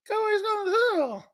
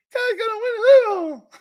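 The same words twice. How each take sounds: First: Much higher, fast squeaky puppet voice; ventriloquist puppet voice. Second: Much higher, louder, fast puppet voice yelling; the dummy shouts it on command, laughing. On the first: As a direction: play Romo as a dummy on Jerry's lap. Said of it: "like a ventriloquist". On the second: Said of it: "Say it". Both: Retold or imitated.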